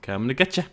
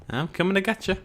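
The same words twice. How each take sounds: First: Said in the usual way. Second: Higher, teasing coming-to-get-you; playful sing-song. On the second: Pretend. Player teasing his Smilodon, playful sing-song. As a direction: tease the animal like a game of chase.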